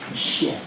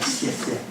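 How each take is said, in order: First: It sounds like the English word 'she'. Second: It does not sound like English 'she'. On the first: "I would probably go with she, and X is essentially she" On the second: "I'll hear people say"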